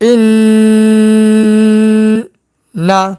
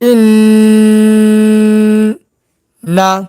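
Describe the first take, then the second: No difference in how they are said.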